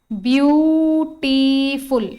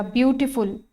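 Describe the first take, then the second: First: beautiful stretched very slowly as ब्यू-टी-फुल; syllable by syllable. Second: Said in the usual way. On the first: Shown as a demonstration. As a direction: draw out each vowel of beautiful, loud and slow. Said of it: "एक से ज्यादा vowel sound है". (Beautiful का हर स्वर खींचकर, धीरे-धीरे) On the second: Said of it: "check करिएगा".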